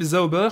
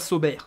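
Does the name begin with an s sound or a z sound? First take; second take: z sound; s sound. First: The name begins with a buzzing z sound. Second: The name begins with a hissing s sound. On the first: The speaker calls it right. "qui cite correctement l'équipe Zauber" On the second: The speaker calls it wrong. "et pas Sauber. Comme moi je le dis vulgairement"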